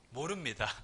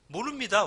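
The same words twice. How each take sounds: First: Soft, lower, falling 모릅니다 shrugged off; quiet evasive denial. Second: Louder, higher 모릅니다 insisted with a falling end; emphatic denial. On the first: Preacher acting out the leaders' dodge, quiet denial. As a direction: mutter 모릅니다 evasively under your breath. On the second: Preacher acting out the leaders' dodge, firm loud denial. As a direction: declare 모릅니다 firmly and loudly. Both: Shown as a demonstration. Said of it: "어쩌면 그게 가장 현명한 대답일 수도".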